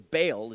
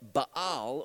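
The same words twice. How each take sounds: First: The name is pronounced the English way. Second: The name is pronounced the Hebrew way.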